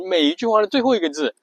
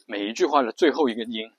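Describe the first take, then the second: First: Said in the usual way. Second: 每一句话的最后一个音 with 音 sinking into a creak; vocal fry on the last syllable. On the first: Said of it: "这么说呢". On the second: Shown as a demonstration. Teacher shows fry only on the final 音. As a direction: let 音 fall into a creaky rattle. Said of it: "就是这么说".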